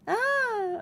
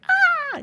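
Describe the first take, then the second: First: It is a weak, uncommitted half-scream. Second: It is a full, committed scream with grit.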